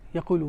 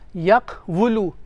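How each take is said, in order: First: A long u follows the q without w. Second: A w consonant is heard after the q. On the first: The speaker calls it right. "we say yaqulu" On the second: The speaker calls it wrong. "we don't say yaqwulu"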